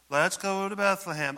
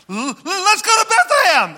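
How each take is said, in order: First: It is said in a plain, calm way. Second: It is said excitedly, stumbling at the start.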